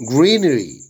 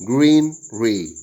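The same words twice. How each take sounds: First: Said in the usual way. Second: "greenery" split as green, ree; syllable by syllable. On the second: Shown as a demonstration. Teacher showing syllable division, "greenery" broken in two. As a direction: say "greenery" as two separated chunks. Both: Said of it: "Syllable division".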